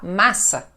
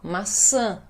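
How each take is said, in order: First: The stress is on the first syllable, not nasal. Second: The stress is on the last, nasal syllable. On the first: The speaker calls it wrong. "Senão a gente vai falar massa, e aí não tá certo" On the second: The speaker calls it right. "porque fica nasal e aquela é a sílaba mais forte"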